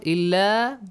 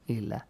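First: The final vowel is held long. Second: The final vowel is kept short. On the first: "It has a long vowel" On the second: "but no longer illa"

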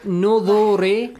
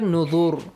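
First: The word ends with a short final vowel. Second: The word ends on a bare consonant. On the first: "like we say nuduri" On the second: "we stop here"

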